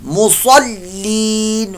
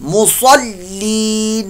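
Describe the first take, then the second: First: The 's' is heavy and full. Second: The 's' is heavy and full.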